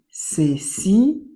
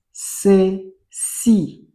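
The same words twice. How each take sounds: First: Ceci whispered without voice. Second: Said in the usual way. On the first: Shown as a demonstration. Teacher repeating ceci to pupils in a whisper. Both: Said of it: "reading word twice, second whispered".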